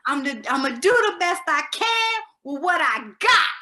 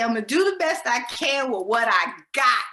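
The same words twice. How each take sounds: First: Tipsy, slurred diva line, louder and higher. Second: Said in the usual way. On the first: Retold or imitated. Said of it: "in a very, kind of a slurred [name] voice". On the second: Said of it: "for her to say".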